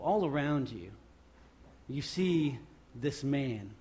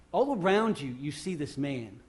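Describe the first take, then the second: First: Said in the usual way. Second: "All around you" hit with force, "you see this man" dropping back; emphatic repeat. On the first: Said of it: "repeats it louder". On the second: Shown as a demonstration. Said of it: "repeated with force".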